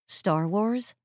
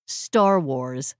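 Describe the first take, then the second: First: "Star Wars" with a rising, questioning end. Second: "Star Wars" low and firm, stressing "Star"; emphatic confirmation. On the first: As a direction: ask "Star Wars" as a puzzled check. Friend questions the quote's source. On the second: He confirms the quote's source. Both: Acted.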